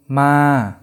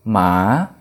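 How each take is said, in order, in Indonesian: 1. Nadanya turun dari tinggi ke rendah. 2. Nadanya turun dulu lalu naik. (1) "Terus ada nada jatuh" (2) "Dan nada bangkit"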